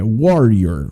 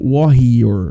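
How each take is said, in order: First: The r sounds like an English r. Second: The r sounds like a Portuguese r. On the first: The speaker calls it right. "He não, é warrior" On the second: The speaker calls it wrong. "alguns alunos acabam falando comigo warrior"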